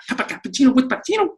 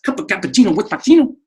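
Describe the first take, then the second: First: Even faster, pitched much higher; faster and higher tongue twister. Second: Fast tongue twister. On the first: Teacher repeats the tongue twister faster, higher. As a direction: speed it up and climb in pitch. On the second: Teacher challenges himself with a tongue twister, fast. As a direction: rattle it off fast. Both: Shown as a demonstration. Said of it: "Say that a couple times fast".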